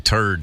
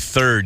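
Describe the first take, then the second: First: The word begins with a plain 't' sound. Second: The word begins with a 'th' sound. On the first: "you say turd. You just, the H's just go right away" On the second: "you don't say third"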